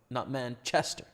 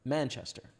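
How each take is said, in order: First: The stress falls on the second part, chester. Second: The stress falls on the first part, man. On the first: The speaker calls it wrong. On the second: The speaker calls it right. "chill on the ch"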